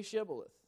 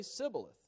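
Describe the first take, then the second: First: Shibboleth with a clear sh at the start; correct sh sound. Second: Sibboleth with a plain s instead of sh; mispronounced with s. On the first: The Gileadites test a stranger, Shibboleth said right. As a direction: say Shibboleth properly, sh not s. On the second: The Ephraimite fails the test, saying Sibboleth with s. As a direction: lisp the test word as Sibboleth. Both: Acted. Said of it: "for he could not pronounce it right".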